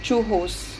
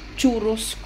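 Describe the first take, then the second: First: The double R is said as an H sound. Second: The double R is said as an R sound.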